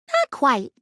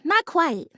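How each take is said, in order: First: It sounds snarky and sarcastic. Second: It sounds sincere and genuine.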